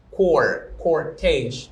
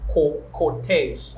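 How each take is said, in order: First: Cor and cortege with the R sounded; R pronounced. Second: Slow cor, cortege with no R sound; non-rhotic cor and cortege, vowels only where R is written; silent R. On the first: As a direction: rhotic cor, cortege, an R before the t and ending cor. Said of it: "you will pronounce the R". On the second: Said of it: "I will not pronounce that". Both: Shown as a demonstration.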